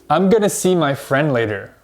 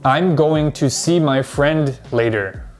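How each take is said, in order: First: Going to is reduced to gonna. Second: Going to is said in full. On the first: "if you've been studying English for a little while, you might say this" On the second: "Most English learners will say this"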